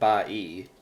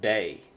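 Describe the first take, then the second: First: The vowels are split into two separate syllables. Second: The vowels blend into one single syllable. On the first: The speaker calls it wrong. "You don't pronounce it ba-e" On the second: The speaker calls it right. "you pronounce it bay"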